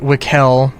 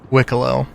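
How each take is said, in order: First: The final O sound is left silent. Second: The final O sound is clearly pronounced. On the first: The speaker calls it wrong. "not Wickel with a silent O" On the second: The speaker calls it right. "It is Wicklow"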